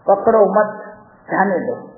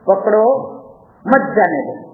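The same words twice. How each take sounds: First: The pause comes after the word 'mat'. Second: The pause comes after the word 'pakdo'. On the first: Do not hold it; let it go. The speaker calls it right. "એટલે એનો meaning શું થયો? કે પકડવું નહીં જવા દેવું" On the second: Hold it; do not let it go. The speaker calls it wrong. "વાંચનારે જરા ભૂલ કરી"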